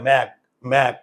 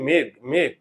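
First: The vowel is an open 'ae', jaw opening wide. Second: The vowel is a close 'e', jaw barely opening. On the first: The speaker calls it wrong. "আমরা তো উচ্চারণ করি না ম্যাগ ম্যাগ। এটা অনেক অঞ্চলে বলে ম্যাগ" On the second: The speaker calls it right. "আমরা এটাকে উচ্চারণ করি মেঘ মেঘ, চোয়াল খোলে না।"

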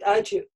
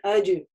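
First: The middle consonant is a voiceless ch sound. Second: The middle consonant is a voiced dj sound. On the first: The speaker calls it wrong. "еще бывает ошибка часто, это говорят «ачи»" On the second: The speaker calls it right. "на сукуне аджи"

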